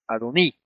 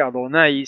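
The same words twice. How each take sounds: First: "Adoní" with the stress on the final í; Adoní ending in "í". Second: "Adonai", last syllable rhyming with Spanish "hay"; Adonai ending in "ai". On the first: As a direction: end "Adoní" on a pure, stressed ee sound. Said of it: "con acento en la I". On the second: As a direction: say "Adonai" with a final "ai" glide. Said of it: "Y no decir Adonai". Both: Shown as a demonstration.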